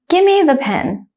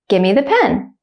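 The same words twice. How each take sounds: First: The sentence is said slowly and carefully. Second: The sentence is said at normal conversational speed. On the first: "one time slowly" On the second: "at a normal speed, like a native speaker"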